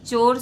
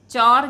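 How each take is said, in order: First: चोर said with a closed "o" sound: chor; correct vowel. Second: चौर said with an open "au" sound: chaur; wrong vowel. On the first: Teacher to class, giving the correct चोर with a closed o. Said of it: "चोर शुद्ध शब्द है". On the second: Teacher to class, reading the wrong form चौर with an open au. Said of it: "चौर गलत है". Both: Shown as a demonstration.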